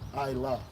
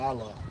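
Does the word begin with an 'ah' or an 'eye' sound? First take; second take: eye; ah. First: It begins with an 'eye' sound, then 'la'. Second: It begins with an 'ah' sound, then 'lah'. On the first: The speaker calls it right. "This is an I" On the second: The speaker calls it wrong.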